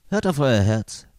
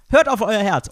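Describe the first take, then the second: First: It is said in a pointed, suggestive way. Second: It is said lightly and casually. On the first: You are expected to pay a generous amount. "Hört mal ganz genau hin, was euch euer Herz sagt" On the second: Simply follow your feelings. "Es kommt total drauf an, wie man es sagt"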